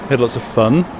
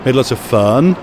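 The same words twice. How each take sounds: First: The vowels are kept short and clipped. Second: The vowels are drawn out long. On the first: "I would use quite short vowels" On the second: "you use quite long vowels"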